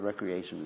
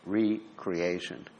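First: It is said as one ordinary word. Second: It is split into re and creation. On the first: Leisure and relaxation. "The word recreation" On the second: Creating oneself anew. "is two words"

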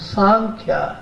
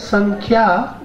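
First: The first vowel is lengthened. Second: The final vowel is lengthened. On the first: It means the philosophy describing the soul's real nature. "the other Sankhya, the first A is very long" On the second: It means that which describes things in detail. "the first one, the last A is long"

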